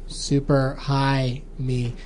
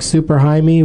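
First: A gap separates 'high' and 'me'. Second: 'High' and 'me' run together as one word. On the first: It is the movie title about getting high. The speaker calls it right. "You have to say high and me far enough apart" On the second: It sounds like a man's first name. The speaker calls it wrong.

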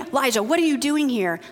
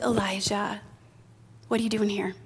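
First: It is said in a harsh, scolding tone. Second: It is said in a gentle, caring tone.

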